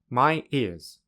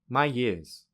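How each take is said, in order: First: The two words are said separately. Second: A y sound joins the two words. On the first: "without linking" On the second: "with linking"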